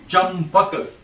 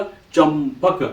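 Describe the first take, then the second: First: Said in the usual way. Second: चंपक said very slowly, syllable by syllable; चंपक stretched out for dictation; slow model word. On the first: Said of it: "च आधा म". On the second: Shown as a demonstration. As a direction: drag out चंपक so the nasal म is heard. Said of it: "च के ऊपर बिंदु लगा दिया".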